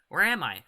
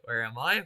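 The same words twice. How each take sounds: First: It is said in a put-on character voice. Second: It is said in his natural voice.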